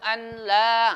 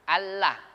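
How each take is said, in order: First: The n sound is pronounced before the l. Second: The n sound merges into the l. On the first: The speaker calls it wrong. "Enggak boleh asyhadu an la. Ah, salah" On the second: The speaker calls it right. "hilang nonnya seakan-akan"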